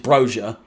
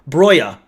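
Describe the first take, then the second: First: The name is said the English way. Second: The name is said the native way. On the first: The speaker calls it wrong. "the ignorant uh, English way of pronouncing it" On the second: The speaker calls it right. "It's pronounced like bro, broya"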